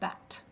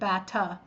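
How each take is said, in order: First: The word ends on a bare t sound. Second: An extra vowel sound follows the final t. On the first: The speaker calls it right. "it's just bat" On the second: The speaker calls it wrong. "the word isn't bata"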